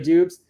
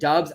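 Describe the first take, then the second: First: The vowel is long, like in 'tubes'. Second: The vowel is short, like in 'tubs'. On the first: The speaker calls it wrong. "not Dubes" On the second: The speaker calls it right. "I think it's Dubs"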